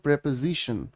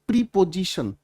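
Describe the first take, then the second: First: The first vowel is a short 'e' sound. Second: The first vowel is a long 'ee' sound. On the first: The speaker calls it right. "It is called प्रेपोजिशन" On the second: The speaker calls it wrong. "बहुत सारे बच्चे ना इस शब्द का उच्चारण सही नहीं करते हैं"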